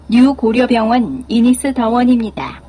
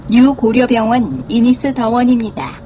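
No difference in how they are said.

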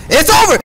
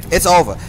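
First: Very high, very loud scream; full shout. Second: Loud, high hype yell; excited shout. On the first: Hyping up the viewers, screaming at full force. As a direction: scream it at the top of the lungs. Repeated louder hype yell. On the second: Hyping up the viewers, loud excited yell. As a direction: shout it out like it's all over. Hyped reaction to game clip. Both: Real, not acted.

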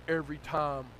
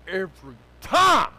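First: Said in the usual way. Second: "time" drawn out and shouted; slow it down, then blast "time"; emphatic shout. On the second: Real, not acted. Preacher hammering God's faithfulness, emphatic slow shout.

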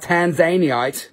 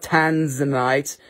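First: "Tanzaniite" as tan-ZAY-nee-ite, slowly; joke local pronunciation. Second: "Tanzanite" as TAN-zuh-nite, slowly; common pronunciation. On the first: Seller jokingly correcting buyers, slow "Tanzaniite" as tan-ZAY-nee-ite. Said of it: "call it Tanzaniite". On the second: Seller showing what not to call it, slow "Tanzanite" as TAN-zuh-nite. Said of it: "Don't call it Tanzanite". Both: Shown as a demonstration.

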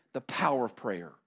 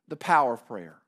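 First: "The power of prayer" said low and softer; soft answer. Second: "The power of prayer" repeated low but fuller, stress on "power"; firm repeat. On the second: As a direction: land it again with weight. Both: Shown as a demonstration. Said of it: "What was the lesson".

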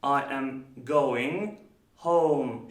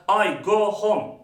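First: "going home" slow, with gliding "oh-oo"; careful, slow "going home" with rounded glides; correct diphthong. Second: "go home" as flat "go hom", loud; wrong pure O. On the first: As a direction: draw out the vowels in "going home". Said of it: "şeklinde telaffuz etmek gerekiyor". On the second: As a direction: mispronounce "go home" with Turkish vowels. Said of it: "Böyle bir şey yok". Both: Shown as a demonstration.

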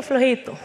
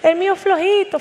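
First: Much softer, falling repeat of flojito; soft echo. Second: Amused mocking. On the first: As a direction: let flojito fade away as an aside. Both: Shown as a demonstration. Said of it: "El mío flojito, flojito".

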